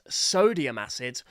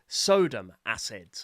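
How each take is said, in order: First: The first word is said with three syllables. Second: The first word is said with two syllables. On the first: The speaker calls it right. "It's sodium acid" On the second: The speaker calls it wrong. "not sodom acid"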